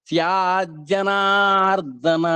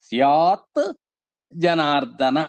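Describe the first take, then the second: First: The words merge into one with a doubled j. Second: The two words are said separately, ending in t. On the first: This is the form after sandhi joining. "సంధి కలవటం వల్ల" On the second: This is the original unjoined form. "అసలు దాని యొక్క రూపం ఏంటంటే"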